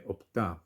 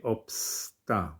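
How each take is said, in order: First: No s sound is heard before the t. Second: An s sound is heard before the t. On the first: The speaker calls it right. "we say opta" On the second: The speaker calls it wrong. "We don't say obsta"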